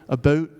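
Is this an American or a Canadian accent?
Canadian. It is said in a Canadian accent with a raised vowel. "Canadian raising because the vowel height gets higher"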